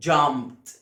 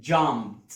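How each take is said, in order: Both takes have the same delivery.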